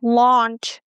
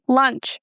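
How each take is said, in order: First: The vowel sounds like the one in 'launch'. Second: The vowel sounds like the one in 'lunch'. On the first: The speaker calls it right. "So I try it again" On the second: The speaker calls it wrong. "I mispronounced this word"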